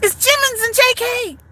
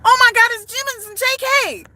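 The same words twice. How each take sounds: First: "Jimmins" stressed, higher excited fan voice; a clueless fan spotting BTS, saying "Jimmins"; mispronouncing Jimmins. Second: "Jimmins" said with a J and a nasal i, high excited fan; a fan gushing over BTS, mangling "Jimmins"; mispronouncing Jimmins. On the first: Mock fan saying "[name]" with a high voice. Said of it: "That's how they gonna do". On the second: High mock fangirl squeal on "[name]". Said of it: "They ain't even gonna pronounce the name right". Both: Retold or imitated.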